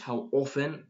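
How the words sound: The T in often is left silent. "that's American"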